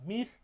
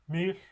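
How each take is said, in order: First: The word is said on a mid pitch. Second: The word is said on a low pitch. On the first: It means snare. "the mid pitch" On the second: It means sleep. "the low pitch"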